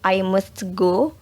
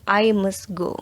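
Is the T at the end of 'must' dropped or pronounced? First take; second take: pronounced; dropped. First: The T at the end of 'must' is pronounced. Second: The T at the end of 'must' is dropped. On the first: "dari I must go" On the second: "menjadi I must go"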